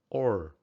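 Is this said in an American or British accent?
American. It is said in an American English accent. "American English"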